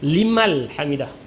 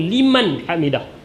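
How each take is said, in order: First: The first word ends with an l sound. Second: The first word ends with an n sound. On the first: The speaker calls it wrong. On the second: The speaker calls it right. "Yang betulnya liman dengan huruf nun"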